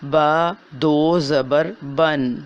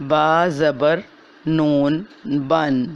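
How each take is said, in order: First: Slow, careful spelling out of با دو زبر بن; spelled tanween reading. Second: با زبر then نون بن drawn out slowly to reveal the hidden noon; hidden noon shown. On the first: Teacher demonstrating tanween to students, slow and careful. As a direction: say با دو زبر بن slowly, ending in a clear nasal بن. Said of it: "جیسے کہ جب ہم پڑھیں گے". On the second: Teacher revealing the hidden noon in tanween, slow and clear. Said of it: "تو یہ ہوگا کیا؟". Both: Shown as a demonstration.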